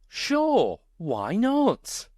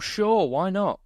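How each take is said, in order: First: It sounds more joyful and enthusiastic. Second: It sounds flat and unenthusiastic.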